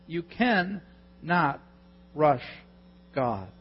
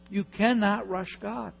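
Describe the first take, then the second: First: You cannot, pause, rush, pause, God, each word slowed and weighted; slow emphatic stress. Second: Said in the usual way. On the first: Shown as a demonstration. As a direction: hammer "cannot" slowly with pauses.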